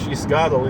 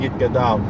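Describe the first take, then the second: First: The word is pronounced with an S sound. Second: The word is pronounced with a T sound. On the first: The speaker calls it right. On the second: The speaker calls it wrong.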